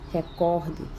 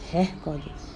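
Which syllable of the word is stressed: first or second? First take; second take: second; first. First: The stress is on the second syllable. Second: The stress is on the first syllable. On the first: The speaker calls it right. "ao invés de pronunciar recorde" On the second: The speaker calls it wrong. "você pronunciando recorde, você está cometendo uma silabada"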